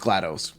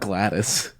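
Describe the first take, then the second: First: The last syllable sounds like 'doss'. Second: The last syllable sounds like 'dis'. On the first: The speaker calls it right. "it's GLaDOS" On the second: The speaker calls it wrong. "It's not Gladys"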